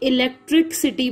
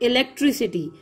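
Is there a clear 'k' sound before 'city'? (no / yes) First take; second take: yes; no. First: It sounds like 'electric city', with a 'k' sound. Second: It flows as 'elec-tri-city', with no 'k' sound. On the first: The speaker calls it wrong. "बाज बच्चे इलेक्ट्रिक सिटी बोलते हैं, जो कि बहुत बड़ी गलती है" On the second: The speaker calls it right. "आखिर में ये सिटी बन जाता है, इलेक्ट और ये ट्री और सिटी"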